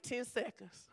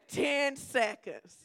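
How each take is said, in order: First: Said in the usual way. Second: Stretched out slowly through a laugh. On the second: Real, not acted. Pastor laughing at her own ten seconds. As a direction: laugh and drag the words out, amused at herself.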